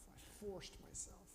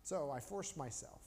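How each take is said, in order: First: Whispered. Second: Said in the usual way. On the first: Shown as a demonstration. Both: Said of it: "repeats it whispered".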